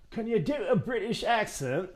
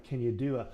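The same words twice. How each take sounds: First: Amateur British accent, lilting higher. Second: Said in the usual way. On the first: Shown as a demonstration. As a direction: put on a British accent with swooping pitch. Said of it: "I hope that was okay".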